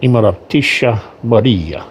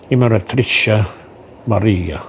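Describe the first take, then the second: First: Imperatrice Maria slowed down in a hammed-up Russian accent; slow mock Russian accent. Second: Imperatrice said quickly, English-style, falling; first try at the name. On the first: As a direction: Imperatrice said slowly as eem-pe-ra-tee-sha, Russian-style. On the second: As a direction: Imperatrice Maria in a rushed, anglicised first try. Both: Shown as a demonstration. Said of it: "pardon my good Russian accent".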